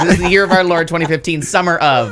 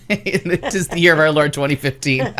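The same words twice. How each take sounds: First: Said in the usual way. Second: Laughing through the catchphrase; catchphrase said while laughing. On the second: Shown as a demonstration. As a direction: giggle out the pet phrase. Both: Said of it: "that is word for word how I like to say things".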